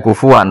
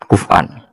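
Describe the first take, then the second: First: The middle consonant is a w sound. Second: The middle consonant is a glottal stop. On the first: This is the transmitted recitation reading. "Sanad kita ke Imam Asim bacanya kufuan" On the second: This is the underlying root form of the meaning. "tapi maknanya tetap kufan ... kaf fa hamzah"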